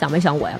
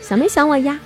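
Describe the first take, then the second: First: It sounds like a stern interrogation. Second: It sounds cute and coaxing.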